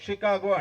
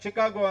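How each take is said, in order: First: The name begins with a 'sh' sound. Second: The name begins with a 'ch' sound. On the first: The speaker calls it right. "షికాగో అంటారు" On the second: The speaker calls it wrong. "దాన్ని చికాగో అనరు"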